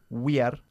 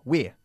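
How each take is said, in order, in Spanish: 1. Se dice en dos sílabas separadas. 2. Se dice en una sola sílaba. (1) "No we are" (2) "Pero una sola sílaba"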